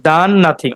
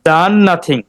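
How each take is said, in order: No difference in how they are said.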